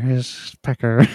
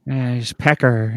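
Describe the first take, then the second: First: Slower still, lightly voiced drawl; Jennifer Coolidge impression. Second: Slow, lightly voiced Coolidge drawl; Jennifer Coolidge impression. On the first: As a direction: lean further into the Coolidge drawl. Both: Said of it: "It's Jennifer Coolidge".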